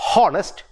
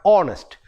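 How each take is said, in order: First: The word begins with an H sound. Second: The word begins with a vowel sound. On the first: The speaker calls it wrong. "it is not honest" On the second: The speaker calls it right. "but honest"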